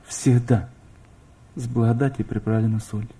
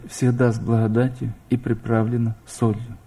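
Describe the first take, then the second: No difference in how they are said.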